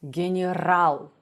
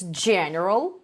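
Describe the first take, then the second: First: It is said with Russian word stress. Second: It is said with English word stress. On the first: "in Russian, it's general" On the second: "in English, it's general"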